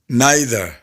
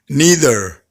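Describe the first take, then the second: First: It is said with a British accent. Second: It is said with an American accent. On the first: "American versus British English" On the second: "American versus British English"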